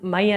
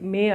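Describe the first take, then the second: First: The vowel sounds like the 'y' in 'my'. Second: The vowel sounds like the 'ay' in 'may'. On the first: The speaker calls it wrong. "మై అనం కదా" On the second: The speaker calls it right. "మే మే మే అంట"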